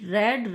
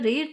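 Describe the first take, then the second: First: The vowel is short, like 'e'. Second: The vowel is long, like 'ee'. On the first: It is the past form. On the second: It is the present form.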